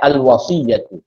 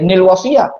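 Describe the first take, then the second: First: The word begins with a plain a sound. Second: The word begins with a linking n sound. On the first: The speaker calls it right. "Kita akan baca al wasiyatu" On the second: The speaker calls it wrong. "kita tidak boleh nil wasiyah"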